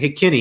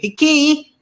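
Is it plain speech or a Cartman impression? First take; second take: plain speech; Cartman impression. First: It is said plainly, without pitching up. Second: It is Cartman's voice, pitching up the end.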